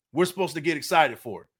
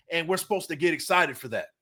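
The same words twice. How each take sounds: First: We're said with the weight, the rest falling away; stress on We're. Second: Said in the usual way. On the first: Shown as a demonstration. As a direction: lean hard on We're, then let it drop.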